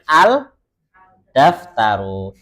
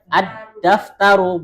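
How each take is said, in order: First: The l is pronounced clearly before d. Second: The l merges into a doubled d sound. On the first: The speaker calls it wrong. "bukan dengan al-daftaru" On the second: The speaker calls it right. "kita bacanya bagaimana? Ad-daftaru"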